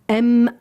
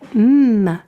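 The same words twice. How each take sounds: First: The letter is said as its alphabet name. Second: The letter is said as a bare sound. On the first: The speaker calls it wrong. "il va pas dire M" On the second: The speaker calls it right. "l'enfant doit le lire M"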